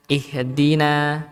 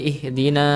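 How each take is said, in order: First: "ihdina" with a light open final a; slow "ihdina" ending in clean "naa"; thin na. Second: "ihdina" ending in rounded "naw"; heavy "na" closing "ihdina"; thickened na. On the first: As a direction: keep the last syllable of "ihdina" thin. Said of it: "harusnya na". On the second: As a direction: darken the final a of "ihdina". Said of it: "menebalkan huruf". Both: Shown as a demonstration.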